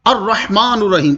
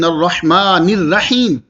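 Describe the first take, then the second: First: The first word ends with a 'u' vowel. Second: The first word ends with an 'i' vowel. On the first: It is cited as a dictionary word for explanation. "जब मैं आपके सामने तशरीह करूंगा" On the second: It is recited exactly as in the scripture. "अब मैं तिलावत कर रहा हूं"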